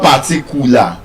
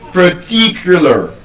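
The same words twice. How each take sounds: First: The stress is not on the second syllable. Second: The stress is on the second syllable. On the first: The speaker calls it wrong. "So that word is not particular" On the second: The speaker calls it right. "it's particular. ... I'm stressing what syllable? The second syllable"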